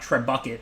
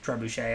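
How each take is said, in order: First: The word has a non-French pronunciation. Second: The word has a French pronunciation. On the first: The speaker calls it wrong. "It's not Trebuchet or whatever" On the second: The speaker calls it right. "It's Trebuchet, I think. I'm assuming it's a French word"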